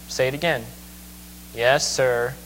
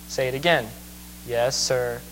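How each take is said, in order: The two takes are said the same way.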